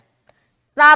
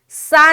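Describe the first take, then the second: First: The consonant is soft with no whistle. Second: The consonant has a sharp whistling hiss. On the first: The speaker calls it right. "सा में सीटी आवाज नहीं आएगी, सख्ती भी नहीं होगी" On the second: The speaker calls it wrong. "सा नहीं बोलना"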